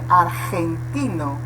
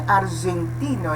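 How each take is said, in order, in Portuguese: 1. O g é um som áspero e gutural. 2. O g é um som suave e sonoro. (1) "é argentino, Nessa pronúncia você vê que é gutural" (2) "não é argentino"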